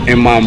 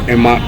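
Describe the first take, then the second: No difference in how they are said.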